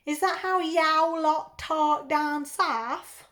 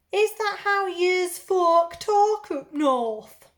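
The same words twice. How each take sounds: First: Slow, put-on South London accent; drawn-out parody of southern English talk; mock southern accent. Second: Loud, high, slow put-on northern accent; drawn-out parody of northern English talk; mock northern accent. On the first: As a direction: tease back with an exaggerated London accent. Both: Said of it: "I apologise now for my accents".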